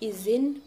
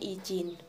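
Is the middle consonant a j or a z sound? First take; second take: z; j. First: The middle consonant is a z sound. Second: The middle consonant is a j sound. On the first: The speaker calls it right. "yang benar izin" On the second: The speaker calls it wrong. "bukan izin"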